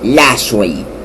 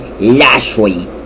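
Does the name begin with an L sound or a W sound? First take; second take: L sound; L sound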